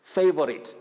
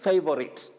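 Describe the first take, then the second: The two takes are said the same way.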